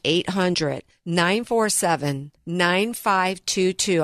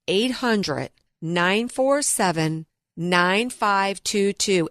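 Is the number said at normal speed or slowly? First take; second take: normal; slowly. First: It is said at normal speed. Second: It is said slowly.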